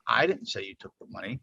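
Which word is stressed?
I. The stress is on "I".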